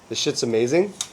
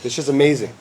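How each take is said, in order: First: The voice curves up at the end. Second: The voice curves down at the end.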